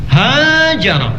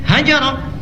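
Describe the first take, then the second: First: The first vowel is drawn out long. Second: The first vowel is kept short. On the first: It names the effort of migrating. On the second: It is a shorter way to express migrating.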